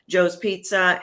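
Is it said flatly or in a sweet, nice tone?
flatly. It is said in a plain, flat tone.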